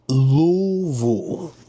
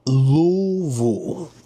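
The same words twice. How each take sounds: First: It is pronounced the way Kentucky locals say it. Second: It is pronounced the way Kentucky locals say it.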